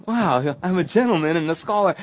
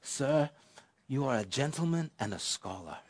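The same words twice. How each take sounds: First: Higher, louder mock self-admiration; flattered pride. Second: Soft, lightly imitated Welsh accent; a hint of an elderly Welsh gentleman, spoken softly. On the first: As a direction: marvel at yourself as the ego swells. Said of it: "the ego is rushing to my head". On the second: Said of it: "beautiful accent from this gentleman".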